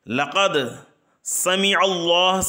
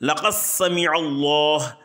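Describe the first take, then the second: First: The d sound is clearly pronounced before s. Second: The d merges into a doubled s sound.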